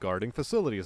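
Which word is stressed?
facilities. The stress falls on the word facilities. The job of protecting facilities. The speaker calls it right. "See the way that flows"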